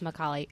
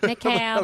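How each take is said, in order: First: The name is said with Italian pronunciation. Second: The name is said the common anglicized way. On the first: The speaker calls it right. "It's Macaulay. I'm Italian, so I have to rep it" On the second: The speaker calls it wrong. "everyone says it like that"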